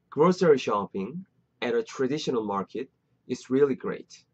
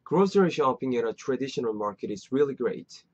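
First: It is said slowly and deliberately. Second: It is said smoothly at natural speed.

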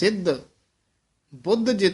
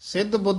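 First: A short pause separates the two words. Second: The two words run together without a pause. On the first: The speaker calls it right. "ਇਹ ਵੀ ਠਮਕ ਯਾਦ ਰੱਖਣ ਵਾਲੀ ਹੈ" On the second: The speaker calls it wrong. "ਸਿੱਧ ਬੁੱਧ ਨਹੀਂ ਕਹਿ ਦੇਣਾ"

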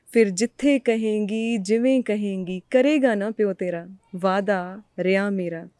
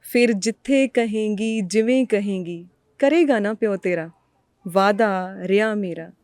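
Both takes have the same delivery.

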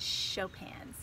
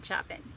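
First: The name is not read as its spelling suggests. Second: The name is read as its spelling suggests. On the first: The speaker calls it right. "It's Chopin" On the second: The speaker calls it wrong. "It kind of looks like Chopin. It's not Chopin"

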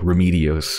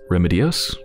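First: The name starts like the word 'remedial'. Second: The name starts unlike the word 'remedial'. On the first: "I'm pronouncing it as if it's, like, remedial" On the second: "It's probably pronounced differently"

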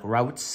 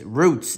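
First: The vowel sounds like the one in 'cow'. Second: The vowel sounds like the one in 'boot'. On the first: The speaker calls it wrong. "I kept on saying that wrong yesterday, like" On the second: The speaker calls it right. "It's Roots"

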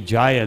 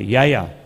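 First: It is said with a standard Indian pronunciation. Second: It is said with a Latin American pronunciation.

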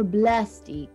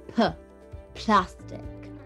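First: The word begins with a voiced 'b' sound. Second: The word begins with a voiceless 'p' sound. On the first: This is how Arabic speakers say it. "نحن بالعربي بنقول بلاستيك" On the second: This is how it is said in English. "بس نحن بالإنجليزي بنقول ب بلاستيك"

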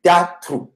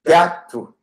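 Both takes have the same delivery.

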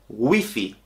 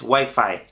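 First: The word is said with Spanish pronunciation. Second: The word is said with English pronunciation. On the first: The speaker calls it right. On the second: The speaker calls it wrong.

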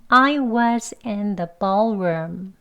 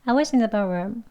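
First: The sentence is spoken slowly and carefully. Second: The sentence is spoken quickly with a short vowel.

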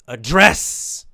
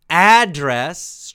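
First: The stress is on the second syllable. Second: The stress is on the first syllable. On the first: It means to talk to someone directly. "more stress on the end of the word" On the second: It is the place where someone lives or gets mail. "strong on the first, the beginning"

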